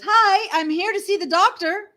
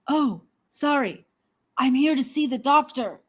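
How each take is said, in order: First: It is said cheerfully at normal volume. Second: It is said in a lowered, quiet voice.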